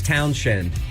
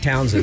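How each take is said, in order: First: The middle of the name has an sh sound. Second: The middle of the name has a plain s sound. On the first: The speaker calls it right. "It's [name], There's an H in there" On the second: The speaker calls it wrong. "a lot of people mispronounce his name"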